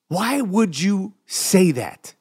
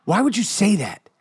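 First: WHY WOULD YOU SAY THAT stretched slowly, word by word; slow, deliberate questioning; slow, pointed repeat. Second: Said in the usual way. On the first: Real, not acted. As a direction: drag out the challenge at half speed. Repeats challenge slowly for emphasis.

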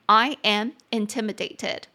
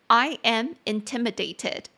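The two takes are said the same way.

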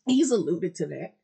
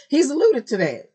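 First: Said in the usual way. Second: High, loud excited repeat; excited emphasis. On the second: Real, not acted. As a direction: stress alluded, thrilled. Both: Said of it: "repeats with emphasis".

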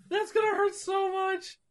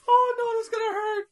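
First: High, fading hammed-up whimper; mock crying. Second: High, hammed-up whimpering wince; mock crying. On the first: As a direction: trail off in fake tears. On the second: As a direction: whine it through fake tears. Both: Wincing in mock tears.

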